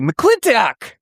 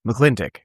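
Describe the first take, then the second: First: It is said in an excited tone. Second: It is said in a bored, flat tone.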